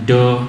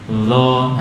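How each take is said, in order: First: The consonant sounds like a plain d. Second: The consonant sounds like an l. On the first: "atau seperti dal, ... seperti dal tapi bunyi o. Ini harus kita hindari" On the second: "Nanti jadi lo"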